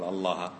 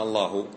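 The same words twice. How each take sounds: First: الله said with final a, Allaha, as the wrong form; ending in a. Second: الله said with final u, Allahu; ending in u. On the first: Teacher contrasting the wrong ending, final a. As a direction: close الله on an a vowel, Allaha. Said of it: "ليش قلنا الله؟". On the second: Teacher asking why it is Allahu, final u. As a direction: close الله on a clear u vowel, Allahu. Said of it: "لم نقل الله". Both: Shown as a demonstration.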